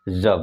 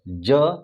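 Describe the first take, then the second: First: It is a 'z' sound. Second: It is a 'j' sound. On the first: The speaker calls it right. "उसको क्या बोलेंगे ज बोलेंगे" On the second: The speaker calls it wrong. "ज ज नहीं पढ़ेंगे"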